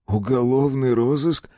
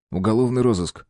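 First: Slow, rising on "розыск"; doubtful repeat, stretch "розыск"; skeptical question. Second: Said in the usual way. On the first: A narrator's reading. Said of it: "покачал он головой".

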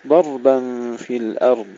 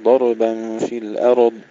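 First: "ضربا" and "الأرض" with ر held unbounced; still ra. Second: "ضربا" and "الأرض" with a vowel after ر; wrong, bounced ra. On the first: Teacher shows the correct reading, still ra. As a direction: join ر straight to the next letter in "ضربا في الأرض". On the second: Teacher shows what we do not say, ra with qalqalah. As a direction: slip an echo after each ر in "ضربا في الأرض". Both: Shown as a demonstration. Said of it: "نحافظ على سكون الراء بدون قلقلة".

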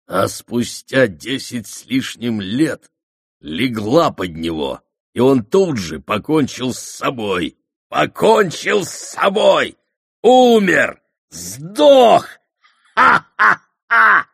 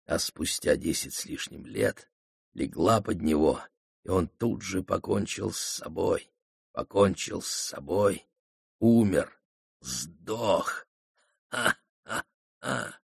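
First: Taunting voice rising to a high, loud shriek; gloat, building to a wild shout and cackle; mocking gleeful shout. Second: Hushed, sneering taunt with a soft laugh; quiet mocking gloat. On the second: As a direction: gloat under your breath. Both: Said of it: "Злой дух издевательски захохотал".

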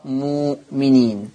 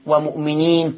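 First: "مؤمنين" as moo-mineen, low and slow, no glottal stop; hamza turned to waw. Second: "ومؤمنين" with a glottal stop after short mu; written hamza form. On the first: Teacher recapping the Warsh reading, low long vowel. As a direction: lengthen the oo of "مؤمنين". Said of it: "تقرأ مؤمنين". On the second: Teacher recapping the written word, hamza pronounced. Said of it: "ومؤمنين تقرأ مؤمنين". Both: Shown as a demonstration.

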